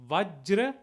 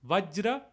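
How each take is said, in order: No difference in how they are said.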